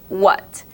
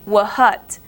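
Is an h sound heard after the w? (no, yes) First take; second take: no; yes. First: No h sound is pronounced after the w. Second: An h sound is pronounced after the w. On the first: The speaker calls it right. "you say what" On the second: The speaker calls it wrong. "You don't say wahut"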